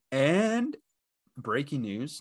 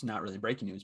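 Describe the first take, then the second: First: Announcer voice for breaking news; mock news anchor. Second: Said in the usual way. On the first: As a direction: play it like a news alert.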